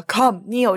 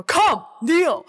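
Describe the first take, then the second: First: Imitated processed deep voice, mildly done; lower, subdued order; low, deep command. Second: Mock imperious order, pitched higher; louder command. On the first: Imitating the film's Voice telling Paul to kneel, low command. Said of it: "就很低沉的一个". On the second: Reverend Mother ordering Paul to kneel, louder imitated command. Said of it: "Reverend Mother更大声说".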